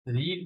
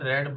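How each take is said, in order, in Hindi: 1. स्वर लंबा है, 'reed' जैसा। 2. स्वर छोटा है, 'red' जैसा। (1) "रीड नहीं" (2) "उसको थर्ड फॉर्म में रेड बोलते हैं"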